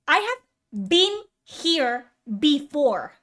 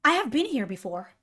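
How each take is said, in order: First: Slow, word-by-word insistence; slow, emphatic. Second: Said in the usual way. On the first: Real, not acted. Exasperated streamer repeating himself to viewers, slow and emphatic. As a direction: space out "I have been here before", pressing each word.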